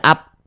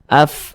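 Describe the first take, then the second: First: The final consonant is closed with no breath. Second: The final consonant has breath flowing through it. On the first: The speaker calls it wrong. "jangan dibaca ap. Nggak ada nggak ada nafas yang mengalir" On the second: The speaker calls it right. "Tapi dia ada nafas yang mengalir. Af, nah, seperti itu"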